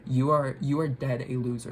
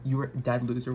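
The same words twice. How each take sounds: First: "You are" set apart and stressed, then "dead a loser"; spelled-out rephrasing. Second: Said in the usual way. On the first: Real, not acted. Rephrases her garbled insult clearly.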